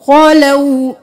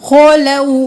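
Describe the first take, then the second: Both takes have the same delivery.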